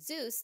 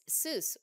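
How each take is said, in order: First: The name begins with a Z sound. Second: The name begins with an S sound. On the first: The speaker calls it wrong. "as opposed to Zeus, the Greek god, which is how I've been pronouncing it" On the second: The speaker calls it right. "It's Seuss with an S"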